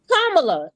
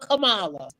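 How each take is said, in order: First: The name begins like the word comma. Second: The name does not begin like comma. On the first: This is her real name. The speaker calls it right. "how many years have she been Kamala" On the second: People keep getting her name wrong. The speaker calls it wrong. "y'all still call her Kamala?"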